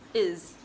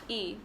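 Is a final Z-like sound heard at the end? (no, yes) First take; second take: yes; no. First: The word ends with a clear Z sound. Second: The word ends without any final Z sound. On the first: The speaker calls it right. "the S is pronounced um, like the letter Z" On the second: The speaker calls it wrong. "forget about the S sound and only read the letter before and read it as E"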